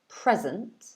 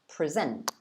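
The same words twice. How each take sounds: First: The stress is on the first syllable. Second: The stress is on the second syllable. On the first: It is the noun meaning a gift or now. "The first one was present" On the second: It is the verb meaning to show or describe. "the stress is on the second syllable"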